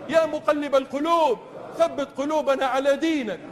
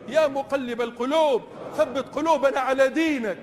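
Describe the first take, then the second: No difference in how they are said.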